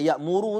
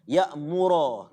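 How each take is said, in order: First: The word ends with a 'u' vowel. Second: The word ends with an 'a' vowel. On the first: The speaker calls it wrong. "Bukan ya'muru" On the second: The speaker calls it right. "Ya'mura tambah alif"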